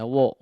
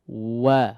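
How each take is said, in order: First: The vowel is a rounded o, lips pushed forward. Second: The vowel is an open a, lips unrounded. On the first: The speaker calls it wrong. "biar tidak jadi" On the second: The speaker calls it right. "Wa fathah disempurnakan pengucapan fathahnya daripada huruf waw"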